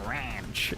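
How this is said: It is said with a nasal American vowel. The speaker calls it right. "American people will go, no, it's pronounced ranch"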